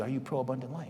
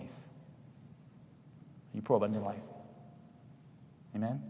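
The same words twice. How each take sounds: First: Said in the usual way. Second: Very slow, breathy whisper. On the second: Shown as a demonstration. Preacher leaves the congregation with a whispered final challenge.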